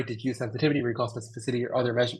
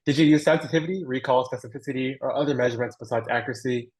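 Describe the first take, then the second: First: Said in the usual way. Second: Careful, slower re-read of a question; slow down so each term comes across. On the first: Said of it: "sorry, I'll read that slower". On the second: Real, not acted. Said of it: "I'll read that slower".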